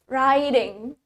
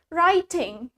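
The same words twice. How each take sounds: First: The t is replaced by a d sound. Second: The t is pronounced very clearly. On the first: "we replace the T with D" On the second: "kita mengucapkan T-nya dengan sangat jelas"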